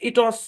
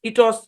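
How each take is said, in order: Both takes have the same delivery.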